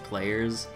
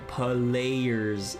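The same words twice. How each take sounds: First: It is said with a plain English pronunciation. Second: It is said with a Japanese-style pronunciation. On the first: "instead of just players" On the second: "the Japanese pronunciation"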